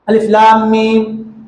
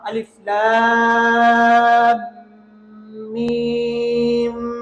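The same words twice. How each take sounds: First: Lam and mim are short, without a nasal hum. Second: Lam and mim are drawn out, mim nasally doubled. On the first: The speaker calls it wrong. "सब गलत है।" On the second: The speaker calls it right. "लाम को जितना खींचना है मीम को भी उतना ही खींचना है।"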